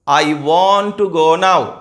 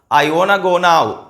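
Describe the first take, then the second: First: 'Want to' is said as two full words. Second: 'Want to' is joined and shortened into one word.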